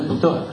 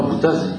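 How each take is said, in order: First: Bouta with no final z, ending on an open a; patois pronunciation. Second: Boutaz said with the final z sounded, as it is written; French spelling. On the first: Lecturer giving the local patois form: Bouta with the z silent. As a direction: drop the z in Bouta and let the name end on a. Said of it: "il s'appelait Bouta". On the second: Lecturer giving the written form: Boutaz with the z sounded. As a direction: Boutaz ending on a clear z, the way French readers say it. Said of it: "s'appelait pas Boutaz". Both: Shown as a demonstration.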